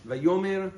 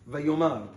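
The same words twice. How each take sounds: First: Vayomer with the e vowel, vah-yo-MER; Vayomer, segol under the mem. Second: Vayomar with an open a, vah-yo-MAR; Vayomar, kamatz under the mem. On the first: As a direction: say Vayomer ending in a short e. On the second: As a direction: say Vayomar ending in a broad a. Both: Shown as a demonstration. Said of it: "For instance".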